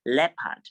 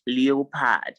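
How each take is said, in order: First: Leopard as LEP-ad; two syllables in leopard, silent O; correct pronunciation. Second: Leopard as LEE-oh-pad; wrong spelling pronunciation. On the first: Teacher correcting students, leopard as LEP-ad. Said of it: "it is pronounced leopard". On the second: Teacher mimicking students' mistake, leopard as LEE-oh-pad. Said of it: "it is not leopard". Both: Shown as a demonstration.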